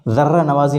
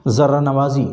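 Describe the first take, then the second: First: ذرہ said with a hard d; wrong d. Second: ذرہ said with a plain z; correct z. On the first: Teacher showing students the wrong ذرہ. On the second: Teacher showing students the right ذرہ. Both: Shown as a demonstration. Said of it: "نہیں کہا جائے گا".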